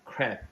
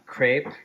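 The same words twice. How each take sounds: First: The word is said with a French pronunciation. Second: The word is said with an American pronunciation. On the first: "in French it's like um, it, they say it differently" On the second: "in America we say that it's a crepe"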